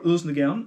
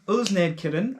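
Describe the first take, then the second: First: The middle consonants are softened and partly dropped. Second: Every written consonant, including the d, is sounded. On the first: This is how Danish speakers really say it. The speaker calls it right. "as you actually pronounce it in Danish" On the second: This is how the spelling suggests it sounds. The speaker calls it wrong. "as it might sound"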